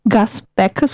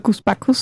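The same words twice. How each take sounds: First: The name is said with an English pronunciation. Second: The name is said with a German pronunciation. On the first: This is the singer's original American form of the name. "auch ein bisschen englisch angehaucht, weil der Sänger ja Amerikaner ist" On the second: This is how the name is commonly known locally. "ist er so bei uns bekannt"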